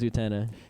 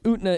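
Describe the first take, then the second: First: The vowel after the t is kept. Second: The vowel after the t is dropped. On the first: The speaker calls it right. "The the actual pronunciation is Utena" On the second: The speaker calls it wrong. "Utna is a joke"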